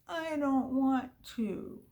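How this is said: It is said in a whining voice.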